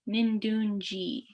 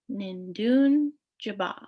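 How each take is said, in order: First: The word is said shortened, with syllables dropped. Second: The word is said in full, all syllables. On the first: "this is also shortened. So you might hear Nindunji in some dialects" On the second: "the full uh, pronunciation is Nindun Jaba"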